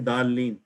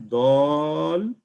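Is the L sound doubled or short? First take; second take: short; doubled. First: The L sound is short and single. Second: The L sound is held long and doubled. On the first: The speaker calls it wrong. "don't say dalin" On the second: The speaker calls it right. "It is dalin. ... there are two lams here"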